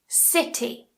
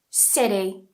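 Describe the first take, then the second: First: It has a clear British T sound. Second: It has an American flapped T sound. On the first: "make sure you're pronouncing that T" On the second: "in American English"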